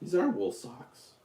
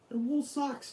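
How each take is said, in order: First: Said in the usual way. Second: Much higher, squeaky and soft. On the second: Real, not acted. Showing off his socks.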